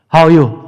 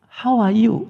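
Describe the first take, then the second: First: It is said in an unfriendly, off-putting way. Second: It is said in a warm, pleasant way.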